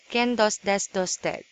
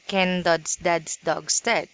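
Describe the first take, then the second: First: The final consonants of the words are dropped. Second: The final consonants of each word are clearly pronounced. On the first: The speaker calls it wrong. "you always say" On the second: The speaker calls it right. "So it should be"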